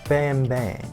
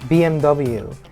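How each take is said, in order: First: The letters are said the German way. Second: The letters are said the English way. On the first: "in German it's B M W" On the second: "we say B M W"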